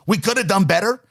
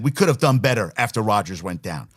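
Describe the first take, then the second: First: Incredulous echo. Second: Said in the usual way. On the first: Real, not acted. Radio host mocking the coach's quote, incredulous rising echo. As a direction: throw the quote back with a rising, disbelieving lift. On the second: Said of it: "the Salah said".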